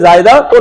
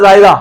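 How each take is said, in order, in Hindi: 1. शब्द 'tun' अक्षर से खत्म होता है। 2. शब्द साधारण स्वर पर खत्म होता है। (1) "असल में जायदातुन है" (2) "उर्दू में बोलते हैं ना जायदा"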